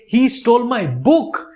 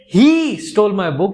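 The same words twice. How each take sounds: First: The stress is on "book". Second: The stress is on "he".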